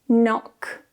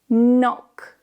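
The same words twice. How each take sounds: The two takes are said the same way.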